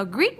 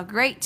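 First: "great" mispronounced as greet; GREAT read wrongly, rhyming with feet; wrong vowel. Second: "great" with an ay vowel; GREAT as grayt, not greet; correct vowel. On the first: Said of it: "không đọc là great". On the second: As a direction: say "great" to rhyme with late. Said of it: "chúng ta đọc là great". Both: Shown as a demonstration.

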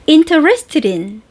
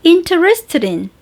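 No difference in how they are said.

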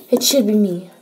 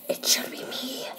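First: Said in the usual way. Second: Unvoiced secret whisper of me. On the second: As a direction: hush it like a secret. Whisper then normal repeat.

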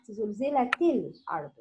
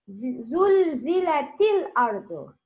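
First: زلزلت الأرض with the همزة الوصل sounded; teacher shows the reading to avoid; wrong reading. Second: زلزلت الأرض with the همزة الوصل dropped and run together; teacher models reading without همزة الوصل; correct reading. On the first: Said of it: "Don't say زلزلت الأرض". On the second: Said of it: "Don't pronounce همزة الوصل". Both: Shown as a demonstration.

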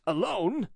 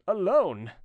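First: Higher, rising query; surprised question. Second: Higher exclamation falling at the end; emphatic disbelief. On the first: Jeannin sees him return alone, puzzled. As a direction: ask with a puzzled lift at the end. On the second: Jeannin questions his lone return, incredulous. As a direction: repeat it harder, in disbelief. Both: A narrator's reading.

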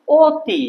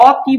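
First: অতি begun with a rounded 'o', as 'o-ti'; closed o vowel. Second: অতি begun with an open 'aw' sound; wrong open vowel. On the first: Teacher shows what we say, অতি as 'o-ti'. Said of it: "অ এর বদলে এটা হবে ও". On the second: Teacher shows what we don't say, অতি with open 'aw'. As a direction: say অতি as 'aw-ti', mouth open. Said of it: "অতি বলি না". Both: Shown as a demonstration.

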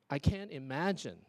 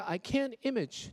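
First: IMAGINE in three syllables, stress on MAG; full correct word. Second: IMAGE said for "imagine", first syllable stressed; slow "can't image", final -in missing; dropped last syllable. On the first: Shown as a demonstration. Teacher giving the intended sentence, full "imagine". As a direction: say "imagine" with its final -in. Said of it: "所以要特别注意". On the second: Retold or imitated. Teacher repeating the student's mistake, truncated "image". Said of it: "你又影响到了它意义咯".

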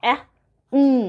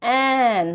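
First: Short "অ্যা", pause, then held hum "উম"; sounding out letters. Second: "অ্যান" as one long drawn-out syllable; blended sounds. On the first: Teacher showing A and N blending, sounds kept apart. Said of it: "এখানে কি হবে". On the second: Teacher showing two letter blending, smoothly joined. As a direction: stretch and join the sounds into "অ্যান". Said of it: "এইভাবে two letter blending". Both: Shown as a demonstration.

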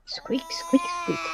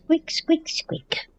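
First: Breathy high squeaky-toy imitation; whisper-squeak like the dog's toy. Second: Voiced, high squeak-squeak imitation fading to a whisper; high toy squeaks. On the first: Copying the dog's squeaker for viewers, whispered squeaks. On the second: Showing viewers the dog's toy, high squeaks.

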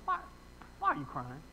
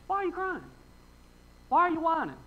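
First: Low, soft questioning as God; imagined God questioning. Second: High-pitched exasperated questioning; mock exasperation. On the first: Retold or imitated. Preacher voicing God questioning him, low and soft. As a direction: lightly voice a low, puzzled God. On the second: Preacher voicing God fed up with whining, mock exasperated.

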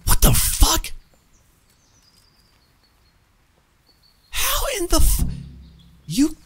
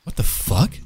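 First: Outraged shriek. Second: Said in the usual way. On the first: Real, not acted. Gamer sees companion captured, disbelieving screech. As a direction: squeal it in disbelief.

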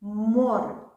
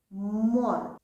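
First: «Море» with a loud МО; «Море» with an emphatic first syllable; stress on the first syllable. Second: «Море» with a firm МО; «Море» with a clear first-syllable stress. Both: Shown as a demonstration. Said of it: "Ми робимо акцент на перший склад".

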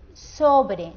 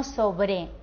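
First: "Sobre" with a loud SO, falling on BRE; stress on first syllable. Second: "sobre" with the weight shifted onto BRE; stress on last syllable. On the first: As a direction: punch the SO of "Sobre". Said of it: "Sobre tiene la sílaba tónica". ("Sobre" con acento fuerte en la primera sílaba, SO) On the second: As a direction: lean on the final BRE of "sobre". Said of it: "no sobre". ("sobre" con acento en la última sílaba, BRE) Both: Shown as a demonstration.

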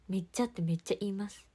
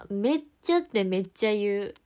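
First: Said in the usual way. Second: 「めっちゃ」を弾むように大きめに言う; 口癖を楽しげに強調して; lively catchphrase. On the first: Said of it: "確かに". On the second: Shown as a demonstration. (自分の口癖を面白がって明るく強調)

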